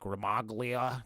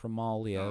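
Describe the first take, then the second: First: The G in the name is clearly sounded. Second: The G in the name is silent. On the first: The speaker calls it wrong. "I used to get calls from the telemarketers and be like" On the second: The speaker calls it right. "It's like no, it's Romalia"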